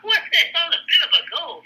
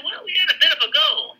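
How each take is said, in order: First: Much higher and faster, laughing in disbelief; echoing the colonel's words with a laughing what the hell; incredulous laugh. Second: Much higher, a hint of a clipped British officer; lightly imitating a British colonel shrugging off heavy losses; mock British colonel. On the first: Real, not acted. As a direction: laugh at the absurd understatement. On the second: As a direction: play the colonel's understatement lightly. Quoting the understated British colonel.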